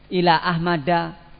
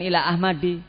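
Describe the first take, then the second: First: The name ends with an a vowel. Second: The name ends with an i vowel. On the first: The speaker calls it right. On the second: The speaker calls it wrong. "bukan ila Ahmadi"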